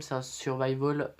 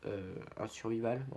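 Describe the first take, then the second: First: "survival" said the English way, sur-VAI-vol; English-style pronunciation. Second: "survival" said the French way, sur-vi-val; French-style pronunciation. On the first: (« survival » prononcé à l'anglaise, sur-vaï-vol) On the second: (« survival » prononcé à la française, sur-vi-val) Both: Shown as a demonstration. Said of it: "vous mettez l'accent ou pas".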